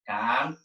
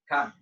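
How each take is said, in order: First: The word is said in a gentle, friendly tone. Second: The word is said in a firm, commanding tone. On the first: It is a friendly invitation. "I said come in a very nice way" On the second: The command must be obeyed and cannot be ignored. "my tone would be different because I want I need to enforce the command"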